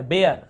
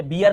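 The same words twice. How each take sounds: First: बेयर, rhyming with "air"; ay-er vowel. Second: बियर, rhyming with "ear"; mistaken ee vowel. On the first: Teacher giving students the right reading, बेयर with "ay-er". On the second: Teacher showing students the misreading, बियर with "ee-er". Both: Shown as a demonstration. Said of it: "ये बियर नहीं पढ़ रहे".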